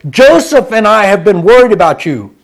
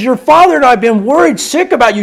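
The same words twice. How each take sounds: First: "Joseph" pushed forward; "Joseph" said loud and pointed; stress on Joseph. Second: "father" leaned on; "Your father" said with weight on "father"; stress on father. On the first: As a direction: hit "Joseph" hard as the wrong version. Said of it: "She doesn't say". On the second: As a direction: press the word "father" so it stands out. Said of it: "she says". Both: Shown as a demonstration.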